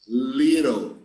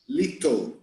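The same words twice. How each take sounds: First: The middle T sounds like a quick R. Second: The middle T sounds like a clear T. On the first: "the Americans, they tend to pronounce the letter T like R" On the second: "In England and probably in Malta too, they pronounce it like a T"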